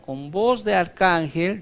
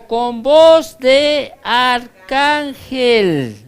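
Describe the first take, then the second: First: Said in the usual way. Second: Voz de arcángel proclaimed loud, high and very slow; archangel's voice. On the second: Acted. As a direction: thunder "voz de arcángel" like a herald from heaven. ("voz de arcángel", alto, fuerte y muy lento) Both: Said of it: "Es la voz de Miguel".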